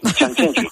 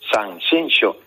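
First: The name is said with an outsider's mispronunciation. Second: The name is said with the local pronunciation. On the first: The speaker calls it wrong. "para decir Sanxenxo me empezaba diciendo Sanxenxo, Sanxenxo" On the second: The speaker calls it right. "que no, que es Sanxenxo"

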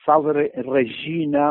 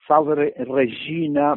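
First: The Latin is pronounced with Italian-style church sounds. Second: The Latin is pronounced with Italian-style church sounds.

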